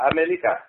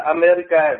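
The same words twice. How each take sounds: First: America with an L in place of the R, A-me-li-ca; America said as Amelika; Chinese America. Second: Said in the usual way. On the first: Shown as a demonstration. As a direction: turn the R of America into an L. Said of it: "người Tàu họ đọc là". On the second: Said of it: "chữ Hoa Kỳ chúng ta là".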